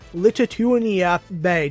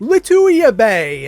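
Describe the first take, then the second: First: The name sounds like the country Lithuania. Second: The name sounds like lih-TOO-yah. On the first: The speaker calls it wrong. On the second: The speaker calls it right.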